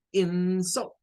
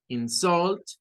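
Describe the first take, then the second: First: "insult" said IN-sult, like the noun; teacher contrasting "insult" with strong first syllable; stress on first syllable. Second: "insult" said in-SULT, like the verb; teacher contrasting "insult" with strong second syllable; stress on second syllable. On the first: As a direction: lean on a high "in-" in "insult", weak "-sult". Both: Shown as a demonstration. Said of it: "tenemos dos pronunciaciones".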